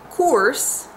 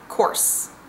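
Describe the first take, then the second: First: The vowel is long and the S short. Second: The vowel is quick and the S long. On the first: "you're spending a lot of time on the vowel" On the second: "You get through the vowel very quickly, and you spend more time on the S sound"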